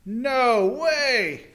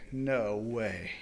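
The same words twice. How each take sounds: First: High, loud disbelief; outraged exclamation. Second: Low, soft disbelief; barely believe what you hear; stunned hush. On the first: Master hearing the report, loud outraged disbelief. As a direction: explode at the news. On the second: Master hearing the report, low stunned murmur. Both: Acted.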